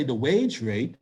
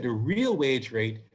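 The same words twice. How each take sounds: First: Said in the usual way. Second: Slow, with "real" stressed. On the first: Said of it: "we didn't say the wage rate". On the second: Shown as a demonstration. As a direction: lean on "real" in "the real wage rate". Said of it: "we said the real wage rate".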